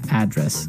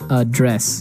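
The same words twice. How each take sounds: First: The stress is on the first syllable. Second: The stress is on the second syllable.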